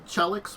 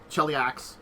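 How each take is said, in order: First: It is said without an 'ah' vowel before 'x'. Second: It is said with an 'ah' vowel before 'x'. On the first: The speaker calls it wrong. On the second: The speaker calls it right.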